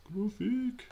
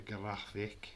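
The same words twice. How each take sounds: First: High, loud silly echo of GRAPHIC; playful put-on voice. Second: Said in the usual way. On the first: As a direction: squeal GRAPHIC in a comic voice.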